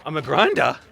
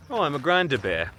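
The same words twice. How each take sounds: First: Incredulous query, punching "grinder"; puzzled question. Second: Dawning realization. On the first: Vlogger told a bear label, puzzled and questioning. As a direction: question the word "grinder" as if misheard. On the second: Vlogger working out the bear label, getting it. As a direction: let the penny drop on "Oh". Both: Real, not acted.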